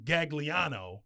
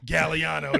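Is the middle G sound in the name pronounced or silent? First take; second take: pronounced; silent. First: The middle G sound is clearly pronounced. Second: The middle G sound is dropped entirely. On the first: The speaker calls it wrong. "I was saying Gagliano" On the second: The speaker calls it right. "we dropped the G"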